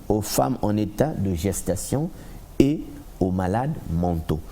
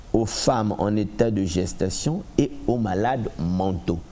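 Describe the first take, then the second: No difference in how they are said.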